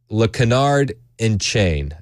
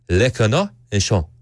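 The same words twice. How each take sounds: First: It is said with a plain English accent. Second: It is said with an exaggerated French accent. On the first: The speaker calls it wrong. "I know I'm butchering it" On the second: The speaker calls it right. "let me do it in a French accent so it sounds more official"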